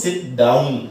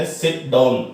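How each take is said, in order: First: "sit down" with "down" gliding clearly through ow, like in cow; the right way, round the vowel into a full ow in "down"; correct pronunciation. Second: "sit down" with "down" said like "don", open o vowel and no ow glide; imitating the wrong way. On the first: Shown as a demonstration. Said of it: "ਇਹ ਡਾਊਨ ਹੈ, ਆਊ sound ਹੈ". (ਸਹੀ ਉਚਾਰਨ, "down" ਵਿੱਚ ਸਾਫ਼ ਆਊ ਆਵਾਜ਼) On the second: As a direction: mimic the kids' mistake, "down" rhyming with dawn. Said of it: "ਕਈ ਬੱਚੇ ਇਸ ਨੂੰ ਵੀ ਡਾਊਨ ਬੋਲ ਦਿੰਦੇ ਆ". (ਬੱਚਿਆਂ ਦੀ ਗਲਤੀ ਦੀ ਨਕਲ, "down" ਨੂੰ "ਡੌਨ" ਵਾਂਗ)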